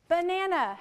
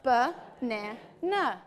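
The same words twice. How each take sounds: First: Said in the usual way. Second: "Banana" very slow, broken into ba, na, na; cut into syllables. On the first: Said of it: "How many syllables did we cut with banana". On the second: Shown as a demonstration. Teacher cutting the word with students, Banana split syllable by syllable. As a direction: chop "Banana" with a gap after each syllable. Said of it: "cut that word banana into syllables".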